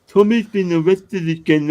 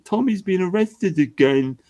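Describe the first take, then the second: First: High mock fan, pushed louder. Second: Mock fan. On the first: Streamer mocking fans with a louder sneer. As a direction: repeat it louder, more sneering. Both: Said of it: "and then people say".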